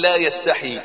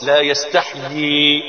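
First: "لا يستحي" said short and quick, the wrong way; the wrong reading. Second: "لا يستحي" drawn out slowly with full "يستحيي"; the right reading. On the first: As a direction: give "لا يستحي" as the mistaken clipped reading. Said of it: "غلط". ("لا يستحي" بالنطق الغلط) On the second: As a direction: stretch "لا يستحي" slowly, the correct recitation. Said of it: "الصح". ("لا يستحي" بالنطق الصحيح ببطء) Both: Shown as a demonstration.

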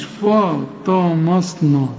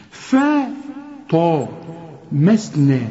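First: فا، طا، مصنا all thick and dark, drawn out; mock the error with heavy فا and مصنا; all heavy, wrong. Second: Thin ف, heavy طا, light مسنا, with pauses; letter by letter. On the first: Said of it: "كلها خطأ". (فا طا مصنا بتفخيم غلط) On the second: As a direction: break it up: ف، طا، مسنا. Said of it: "شوف الحروف ازاي تنطقها". (ف رقيقة، طا مفخمة، مسنا مرققة) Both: Shown as a demonstration.

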